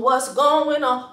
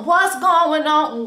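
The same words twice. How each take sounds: First: Said in the usual way. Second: Slow, sung, a bit louder; sung, stretch it into a little tune; sung, sing-song question. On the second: Real, not acted.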